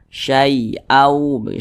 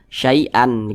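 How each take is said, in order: First: The word ends blending into a w sound. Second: The word ends with a clear n sound. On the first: The speaker calls it right. "kemasukan huruf waw di depannya ya, maka dibaca syai'au" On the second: The speaker calls it wrong. "ujungnya dikasih n, ada huruf nunnya"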